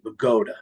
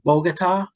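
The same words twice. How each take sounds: First: It is said the local Bergen County way. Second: It is said like the Colombian capital. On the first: "in Bergen County, we pronounce it Bogota" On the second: "just like Colombia"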